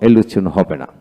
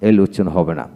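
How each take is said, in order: Both takes have the same delivery.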